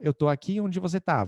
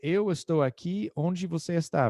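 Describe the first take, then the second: First: Several words are shortened and reduced. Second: Every word is said in full. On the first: This is how people actually speak. "a pessoa falou" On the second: This is the form taught in class. "Eu aprendi uh, para dizer"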